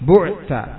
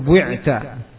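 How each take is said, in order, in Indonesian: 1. Vokal pertama adalah bunyi u murni. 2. Vokal pertama adalah u yang bercampur dengan i. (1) "harus di dhammah awalnya" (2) "atau di ismam"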